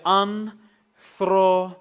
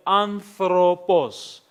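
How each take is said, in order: First: ANTHROPOS in three parts, AN, THRO, POS, with clear pauses; syllable by syllable. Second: ANTHROPOS drawn out slowly and clearly; slow, careful word. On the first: Teacher counting syllables for students, "anthropos" chopped into three drawn-out sounds. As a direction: break "anthropos" into three long, separate syllables. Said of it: "You have three sounds there". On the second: Greek teacher showing a sample word to count, slow and careful. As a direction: say "anthropos" slowly, sounding out each syllable. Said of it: "how many sounds are there".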